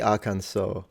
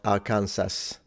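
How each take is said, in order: First: The word ends without an S sound. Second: The word ends with an S sound. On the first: The speaker calls it right. "the final S isn't pronounced. That's why you say Arkansas" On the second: The speaker calls it wrong. "and not Arkansas"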